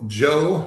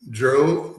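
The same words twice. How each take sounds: First: Said in the usual way. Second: JOE fumbled as a slip of the tongue; mispronounced name. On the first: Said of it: "sorry about that". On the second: Real, not acted. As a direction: stumble on the name JOE, garbling it slightly. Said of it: "I messed up his first name".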